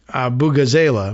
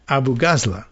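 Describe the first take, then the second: First: The name is said rhyming with vuvuzela. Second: The name is said not rhyming with vuvuzela. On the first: The speaker calls it wrong. "my original interpretation of rhyming with Avuvuzela. I thought it was" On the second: The speaker calls it right. "but it's not"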